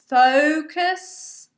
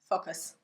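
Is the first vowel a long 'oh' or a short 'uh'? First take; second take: long oh; short uh. First: The first vowel is a long 'oh' sound. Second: The first vowel is a short 'uh' sound. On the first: The speaker calls it right. "correct pronunciation" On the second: The speaker calls it wrong. "and not focus"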